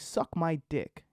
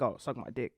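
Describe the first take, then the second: First: It is said slowly and deliberately. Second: It is said quickly and casually.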